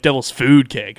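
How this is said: The word food carries the main stress. The speaker calls it wrong. "people like to emphasize the word food"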